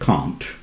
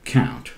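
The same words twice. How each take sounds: First: It is said in a British accent. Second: It is said in an American accent. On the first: "like British do" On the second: "They say can't"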